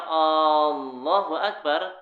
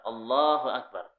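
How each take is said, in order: First: The first vowel of Allahu is drawn out long. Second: The first vowel of Allahu is short. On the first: It asks whether God is the greatest. The speaker calls it wrong. "apakah Allah Maha Besar? Ini salah" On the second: It states that God is the greatest. The speaker calls it right. "Ini menyatakan bahwa Allah itu Maha Besar"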